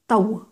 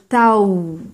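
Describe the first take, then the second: First: The vowel sound is short and clipped. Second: The vowel sound is slightly lengthened. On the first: The speaker calls it wrong. "on va pas dire Tau" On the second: The speaker calls it right. "On va dire Tau. Donc on a l'impression que en fait on prolonge quand même un peu le son"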